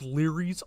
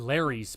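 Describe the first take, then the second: First: The first vowel sounds like 'ear'. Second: The first vowel sounds like 'air'. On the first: The speaker calls it right. "it's pronounced Leary's" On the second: The speaker calls it wrong. "I've been saying Larry's my whole life"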